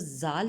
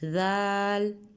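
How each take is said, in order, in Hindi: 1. यह सख़्त ज़ की आवाज़ से शुरू होता है। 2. यह नरम, थ जैसी आवाज़ से शुरू होता है। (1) "हम इसको जाल नहीं पढ़ेंगे क्योंकि फिर ये जा के साउंड में आ जाएगा" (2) "जाल हम आहिस्तगी से पढ़ेंगे, इसको सा के मखरज के साथ पढ़ेंगे"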